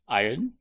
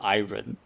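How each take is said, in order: First: It sounds like eye-urn with no separate R-O. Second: It is said as spelled, with an R-O. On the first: The speaker calls it right. "Iron has a uh silent R" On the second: The speaker calls it wrong. "nobody says iron. That doesn't even make sense"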